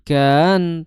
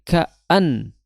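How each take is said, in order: First: The vowels merge with no glottal break. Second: A firm glottal break separates the two vowels. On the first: The speaker calls it wrong. "jangan sampai ka, kan" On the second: The speaker calls it right. "a itu tegas, tapi ka'an"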